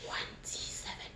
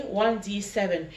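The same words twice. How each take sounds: First: Soft breathy whisper right in the ear. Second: Said in the usual way. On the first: Shown as a demonstration. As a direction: whisper it close, voiceless. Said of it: "I'm going to whisper some words in your right ear". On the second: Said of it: "What did I say?".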